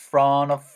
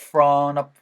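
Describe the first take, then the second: Both takes have the same delivery.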